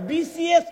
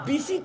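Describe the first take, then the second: First: It is said as 'BCS', with the final S. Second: It is said as 'BC', with no final S. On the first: The speaker calls it right. "বিসিএস ক" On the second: The speaker calls it wrong. "মা বিসি কসকা"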